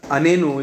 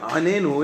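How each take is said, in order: First: It starts with a plain vowel, no throaty sound. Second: It starts with a throaty ayin sound. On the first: The speaker calls it wrong. "Anenu is not a word" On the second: The speaker calls it right. "Anenu is a word, because there's an ayin"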